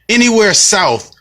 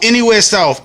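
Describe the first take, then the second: First: Slow, higher, stress on "Anywhere"; emphatic repeat. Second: Said in the usual way. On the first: Real, not acted. To his viewers, hammering home the point, slow and emphatic. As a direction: lean hard on "Anywhere" and stretch "south".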